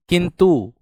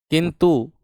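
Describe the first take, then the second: No difference in how they are said.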